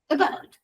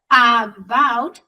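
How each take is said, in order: First: The first vowel is a weak, reduced vowel. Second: The first vowel is a full vowel. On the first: The speaker calls it right. "es about" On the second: The speaker calls it wrong. "No es about"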